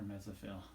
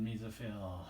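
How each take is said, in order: First: "mesophyll" said softly as MEZ-uh-fill; short-e pronunciation. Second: "mesophyll" said MEE-zuh-fill; long-e pronunciation. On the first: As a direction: open "mesophyll" with a short e, as in "mess", as a lower, softer alternative. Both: Shown as a demonstration. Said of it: "depending on who you talk to".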